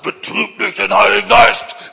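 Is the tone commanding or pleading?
commanding. It is said in a harsh, commanding tone. It is an order given from authority. The speaker calls it wrong. "Das war nicht der Ton eines Generals"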